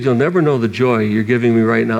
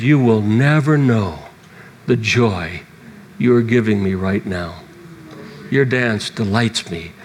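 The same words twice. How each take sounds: First: Slightly lower, gentle re-quote of God; lightly tender repeat. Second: Tender voice of God. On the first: Preacher repeating God's words before weeping. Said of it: "when he said". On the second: Preacher retelling God's tender words to him. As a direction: speak it gently, like a loving father. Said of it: "he spoke to me and said". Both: Retold or imitated.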